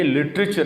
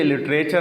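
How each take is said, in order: First: لٹریچر as "lit-ri-cher"; short i in middle of لٹریچر; shortened vowel. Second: لٹریچر as "lit-ray-cher"; long e in middle of لٹریچر; mispronounced literature. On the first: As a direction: keep the middle of لٹریچر brief. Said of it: "مختصر کر کے پڑھنا ہے". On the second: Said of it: "یہ لٹریچر نہیں ہے". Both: Shown as a demonstration.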